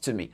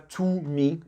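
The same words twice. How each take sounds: First: The word 'to' is said weak and reduced. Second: The word 'to' is said with a full vowel. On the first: The speaker calls it right. "Essayez toujours de réduire au maximum" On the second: The speaker calls it wrong. "ne dites pas"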